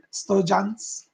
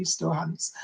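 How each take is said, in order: First: "Stojans" with a y sound, sto-YANS; j-sound version. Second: "Stohans" with a soft h, sto-HANS; h-sound version. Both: Shown as a demonstration. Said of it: "however you say it".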